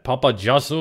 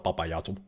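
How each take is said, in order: First: The name is pronounced in an English style. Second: The name is pronounced in a Finnish style.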